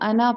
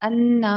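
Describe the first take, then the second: First: The n sound is short and single. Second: The n sound is doubled and held. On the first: The speaker calls it right. "इसको अना पढ़ेंगे" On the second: The speaker calls it wrong. "सिर्फ अन्ना नहीं पढ़ सकते"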